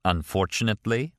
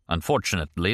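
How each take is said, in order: First: "Unfortunately" lifted into a rising question; questioning echo. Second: Said in the usual way. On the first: Acted. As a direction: echo "Unfortunately" back with a rise at the end. Martin echoes Kastner's word questioningly.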